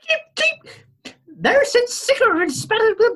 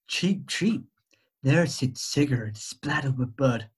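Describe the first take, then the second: First: It is read in a plain voice. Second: It is read in a sexy bird voice.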